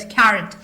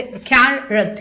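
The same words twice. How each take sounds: First: Said in the usual way. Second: "carrot" in two slow separate beats, कै-रट; split into syllables. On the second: Shown as a demonstration. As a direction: break "carrot" after the first syllable, drawing it out. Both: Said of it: "एक सांस में आप जो बोल पाते हैं".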